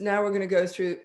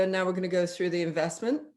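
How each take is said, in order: First: Said in the usual way. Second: Quick, matter-of-fact "investment"; fast, neutral money announcement; brisk neutral phrasing. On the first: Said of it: "It's just". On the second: Retold or imitated. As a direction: rattle it off plainly. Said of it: "some people will say".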